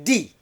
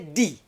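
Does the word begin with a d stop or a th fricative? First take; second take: d stop; d stop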